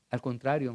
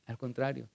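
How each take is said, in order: First: Said in the usual way. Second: "al contrario" repetido mucho más suave; "al contrario" casi para sí; softer repeat. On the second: Retold or imitated. ("al contrario" repetido en voz baja) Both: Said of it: "mi respuesta fue la siguiente".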